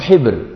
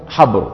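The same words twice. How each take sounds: First: The first consonant is followed by an 'i' vowel. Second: The first consonant is followed by an 'a' vowel. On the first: "أو بكسرها" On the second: "بفتح الحاء"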